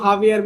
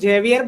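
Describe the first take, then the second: First: The name begins with an H sound. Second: The name begins with a J sound. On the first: This is how others say it. "वो हावियर मिले बोलते हैं" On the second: This is how we will say it. "उसको जेवियर बोलेंगे, जे लिखा है"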